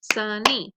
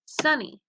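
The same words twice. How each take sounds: First: "sunny" in two beats, SUN, then NY; syllable-by-syllable "sunny"; split into syllables. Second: Said in the usual way. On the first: Shown as a demonstration. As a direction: break "sunny" between its syllables. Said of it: "two syllables". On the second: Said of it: "So let's practice them".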